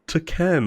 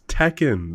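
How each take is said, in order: First: The first syllable sounds like the word 'to'. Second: The first syllable sounds like 'teck'. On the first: The speaker calls it wrong. "no sane person says to Ken" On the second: The speaker calls it right. "it's Tekken"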